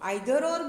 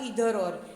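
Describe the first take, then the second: First: Either starts with an eye sound. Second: Either starts with an ee sound. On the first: "આઈધર ઓર બોલો" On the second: "અથવા ઈધર ઓર"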